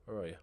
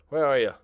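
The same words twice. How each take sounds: First: Said in the usual way. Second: Plain. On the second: Real, not acted. Calling players louder.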